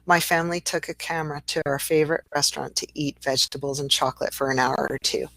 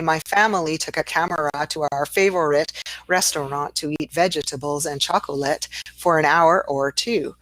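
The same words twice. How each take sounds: First: Syllables are reduced and linked, flowing smoothly. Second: Every syllable is said fully, choppy and unlinked.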